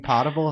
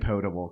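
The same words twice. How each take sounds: First: The first vowel is a short o sound. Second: The first vowel is a long o sound. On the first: The speaker calls it wrong. "it would be potable if there were two T's" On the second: The speaker calls it right. "I say potable"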